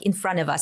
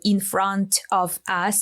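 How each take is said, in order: First: The T in 'front' is dropped. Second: The T in 'front' is pronounced.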